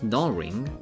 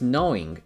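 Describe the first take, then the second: First: The word starts with an 'aw' vowel, like gnawing. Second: The word starts with an 'oh' vowel, like knowing. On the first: The speaker calls it wrong. "It's not gnawing" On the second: The speaker calls it right. "It's knowing"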